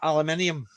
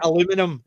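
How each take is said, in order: First: The word is said with five syllables. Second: The word is said with four syllables. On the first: This is how the speaker's own country says it. "instead of aluminium" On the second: This is how people across the ocean say it. "where they say aluminum"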